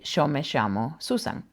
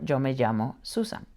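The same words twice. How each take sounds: First: The double L sounds like English sh. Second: The double L sounds like English j. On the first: The speaker is from Argentina or Uruguay. "if I were to say my name and I was from Argentina" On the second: The speaker is from elsewhere in the Spanish-speaking world. "or a J"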